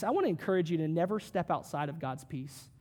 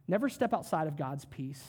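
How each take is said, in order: First: Said in the usual way. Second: "Never" hit first and firm; stress on never. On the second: Shown as a demonstration. Pastor urging listeners to stay in God's peace, stress on "Never". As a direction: lean on "Never" to drive it home.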